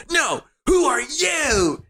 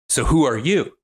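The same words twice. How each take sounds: First: Very high, drawn-out mock wail; mock retort. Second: Mildly upset, higher-pitched challenge; upset demand. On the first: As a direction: throw it back in an exaggerated high squeal. Adam throws the question back. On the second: Retold or imitated. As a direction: act out a pointed demand for an answer. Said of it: "He gets really upset".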